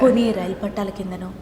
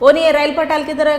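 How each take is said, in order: First: It is said in a calm, sympathetic tone. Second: It is said in a mocking, sarcastic tone. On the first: The line is played subtly, as a private family matter. The speaker calls it right. "జాలిగా" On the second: The line is played as comedy. The speaker calls it wrong. "వెటకారంగా అన్నాను"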